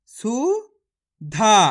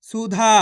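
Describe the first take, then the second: First: सुधा stretched slowly, syllable by syllable; slow sounding out. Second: Said in the usual way. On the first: Shown as a demonstration. Teacher sounding out सुधा for children. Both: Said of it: "मेरे तरीके पे गौर करना है".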